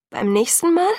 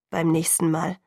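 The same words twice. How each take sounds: First: Much higher, „Mal?“ rising in disbelief; incredulous echo. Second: Said in the usual way. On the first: A narrator's reading. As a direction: throw „Beim nächsten Mal?“ back at him, high and incredulous. She echoes his words in disbelief. (ungläubig, hoch ansteigend auf „Mal“)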